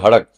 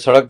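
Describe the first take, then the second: First: The word begins with an h sound. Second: The word begins with an s sound. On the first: "स को उच्चारण वो लोग नहीं करते" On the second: "आप बोलोगे"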